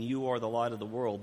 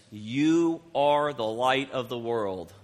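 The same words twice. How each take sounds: First: Said in the usual way. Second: "You are the light of the world" read very slowly, stress on "You"; scripture read slowly with weight on "You"; slow solemn reading. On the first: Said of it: "This is Jesus looking at his followers". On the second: Shown as a demonstration. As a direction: draw out each word, landing on "You". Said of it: "This is not somebody talking to Jesus".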